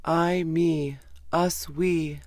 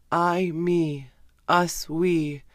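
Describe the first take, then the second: No difference in how they are said.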